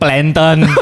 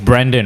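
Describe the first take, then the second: First: The R is replaced by an L sound. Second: The name is said with a clear R sound. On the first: The speaker calls it wrong. "a lot of Chinese they can't pronounce the R. So R becomes" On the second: The speaker calls it right. "Mine is Brandon"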